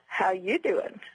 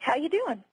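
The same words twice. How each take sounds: First: It sounds like a suggestive, flirtatious line. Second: It sounds like a plain, sincere question. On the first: The speaker is hitting on the listener. "as Joey Tribbiani from the sitcom Friends says" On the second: The speaker is asking how the listener's day is going. "The connotation is, how is your day?"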